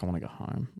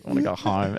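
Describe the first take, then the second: First: Low, much softer mumbled whine; drunk whine. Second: Put-on low, slightly soft drunken plea; repeated whine. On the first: Retold or imitated. Friend on the couch upstairs, mumbling softly to go home. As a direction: mumble it like a tired drunk wanting out. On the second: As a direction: say it again, a little fuller, still pleading.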